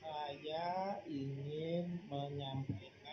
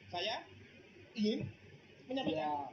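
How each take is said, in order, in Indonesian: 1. Frasa itu diucapkan dengan lambat dan merata. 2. Setiap kata diburu-buru, dengan jeda di antara kata. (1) "itu lambat ya" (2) "Ngomongnya lambat, tapi penyampaian kata per katanya cepat"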